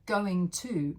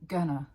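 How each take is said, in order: First: Both words are said fully and separately. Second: The words merge into one reduced word.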